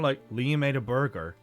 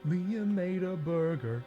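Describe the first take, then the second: First: It is said flat, in a monotone. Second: It is said in a bright, cheerful voice. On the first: "like flat, like monotone" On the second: "Blue's Clues style"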